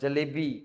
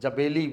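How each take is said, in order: First: The sounds are in normal order: ja-le-bi. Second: The middle sounds are swapped: ja-be-li. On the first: The adult's corrected version of the word. The speaker calls it right. "मैं जलेबी" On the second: A small child's mistaken version of the word. The speaker calls it wrong. "जबेली बोलता है"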